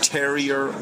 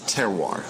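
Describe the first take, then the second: First: The word ends like the English word terrier. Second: The word ends with a French 'wahr' sound. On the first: Someone else got the name wrong. The speaker calls it wrong. "the presenter, said, Terrier Wine Bar" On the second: This is how the name is meant to sound. The speaker calls it right. "It's Terroir"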